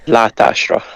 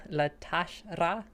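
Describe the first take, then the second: First: "La tashra" stressed at the front, falling; correct emphasis. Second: "la tashra" stressed on the wrong syllable; "la tashra" with the stress misplaced, rising at the end; wrong emphasis. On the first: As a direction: lean on "La", let "tashra" fall away. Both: Shown as a demonstration. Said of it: "put the emphasis on the wrong thing".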